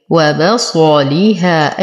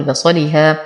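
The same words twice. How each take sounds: First: وبصليها slow, each syllable given its full time; measured, evenly spaced syllables in وبصليها; unclipped vowels. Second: بصليها quick, short syllables run together; snatched vowels. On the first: Teacher showing careful reading, slow full vowels in وبصليها. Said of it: "أنتبه من عدم الاختلاس". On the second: Teacher showing what to avoid, hurried syllables in بصليها. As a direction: rush through بصليها, squeezing the vowels. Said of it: "فلا أقول". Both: Shown as a demonstration.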